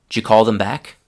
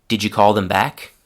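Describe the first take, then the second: Both takes have the same delivery.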